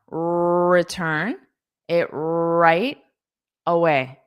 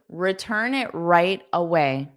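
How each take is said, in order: First: The R sounds are drawn out long. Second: The R sounds are said at normal length. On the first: "the R at the beginning, you can hold out more" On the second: "I'll say it more naturally"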